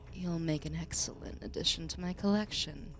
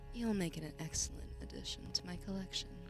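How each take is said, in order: First: The line is said in a plain voice. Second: The line is said in a seductive voice.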